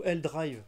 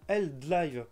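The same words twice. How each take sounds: First: "Drive" with a French R after the D. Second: "Drive" drawn out slowly as "dlaïve". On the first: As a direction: say "Drive" with R, not L. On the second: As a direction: Drive said with L for R, as "dlive". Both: Real, not acted. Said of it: "je sais plus, attendez".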